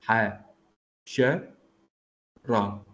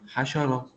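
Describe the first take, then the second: First: The word is broken into syllables with pauses. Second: The word is said smoothly without any pauses.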